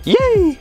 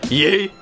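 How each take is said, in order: First: It is said in a high-pitched voice. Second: It is said in a deep, throaty voice. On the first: "the Bay Area ye, it's a little more high pitch" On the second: "Mike's ye, which is like masculine. You gotta use the back of your throat"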